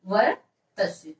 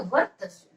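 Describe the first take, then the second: First: वर्तस slowly, in two separated parts; slow, broken up. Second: Said in the usual way. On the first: Shown as a demonstration. Teacher repeats term for note-takers, slow and broken up. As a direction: split वर्तस with a pause.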